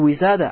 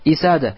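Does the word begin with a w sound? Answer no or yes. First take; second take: yes; no. First: The word begins with a w sound. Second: The word begins with an i vowel. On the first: "Про нее говорят не уисада" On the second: "а иногда говорят как исада"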